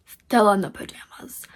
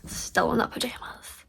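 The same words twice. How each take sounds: First: Said in the usual way. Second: Whispered. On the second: Real, not acted. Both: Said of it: "Look at this".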